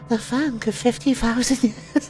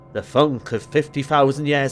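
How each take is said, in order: First: It is said in a put-on female voice. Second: It is said in a male-sounding voice.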